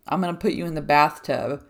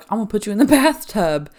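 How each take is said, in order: First: Said in the usual way. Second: Joking threat. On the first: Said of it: "I just said it". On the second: Retold or imitated. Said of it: "one time I joked with her".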